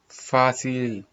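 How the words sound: The c is pronounced like s. This is the Latin American Spanish pronunciation.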